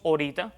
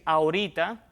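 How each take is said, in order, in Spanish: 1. Se omite la vocal inicial de la palabra. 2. La palabra empieza con su primera vocal completa. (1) "cuando omitimos el sonido inicial de una palabra" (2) "en lugar de decir"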